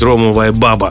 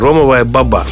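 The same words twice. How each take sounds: First: The stress in баба is on the first syllable. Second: The stress in баба is on the last syllable. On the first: The speaker calls it wrong. "неправильно говорить ромовая баба" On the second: The speaker calls it right. "Помните Али-баба? Вот то же самое"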